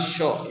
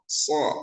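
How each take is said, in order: First: The syllable starts with an sh sound. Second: The syllable starts with a plain s sound. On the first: The speaker calls it wrong. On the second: The speaker calls it right.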